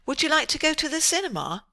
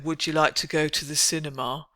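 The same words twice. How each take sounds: First: It is said with a raised, higher pitch. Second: It is said with a low, flat pitch. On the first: The invitation sounds polite. The speaker calls it right. "You see how we raise our pitch for politeness" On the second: The invitation sounds impolite. The speaker calls it wrong. "I don't think so"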